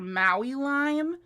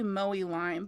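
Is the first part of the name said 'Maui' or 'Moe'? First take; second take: Maui; Moe. First: The first part sounds like two syllables, 'Maui'. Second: The first part sounds like one syllable, 'Moe'. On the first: The speaker calls it wrong. "I always call her Maui Lime" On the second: The speaker calls it right. "it's actually Moe Lime"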